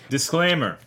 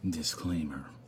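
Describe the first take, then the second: First: It is said in his normal voice. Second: It is said in a soft ASMR voice.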